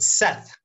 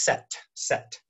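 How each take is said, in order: First: The name ends in a th sound. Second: The name ends in a plain t sound. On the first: The speaker calls it right. "for those of you who can pronounce the TH" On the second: The speaker calls it wrong. "my name gets mispronounced all the time. So I totally understand. I'm always Set"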